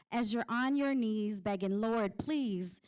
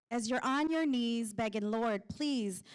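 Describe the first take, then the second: No difference in how they are said.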